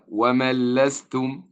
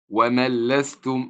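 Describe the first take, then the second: First: The n merges fully into the following l. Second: The n merges fully into the following l.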